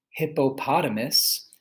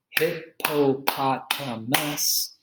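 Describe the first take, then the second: First: Said in the usual way. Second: Hippopotamus drawn out slowly beat by beat; slow syllable clapping. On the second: Shown as a demonstration. Teacher claps out hippopotamus slowly for students. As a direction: break hippopotamus into slow, separate beats. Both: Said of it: "clapping syllables demo".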